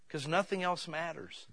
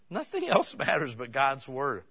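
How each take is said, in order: First: Said in the usual way. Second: Nothing stretched and leaned on, slow, with a laugh; stress on nothing. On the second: Acted. Preacher repeating his point to the church, stressing Nothing. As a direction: press on Nothing, slowly. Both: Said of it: "repeats the line stressed".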